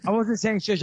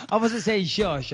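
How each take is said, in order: First: Said in the usual way. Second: "I wasn't saying shush" slowed, each word pressed; slower insistence. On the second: Real, not acted. Host slowly insists he wasn't shushing his co-host. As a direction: spell it out deliberately. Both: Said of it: "Are you shushing?".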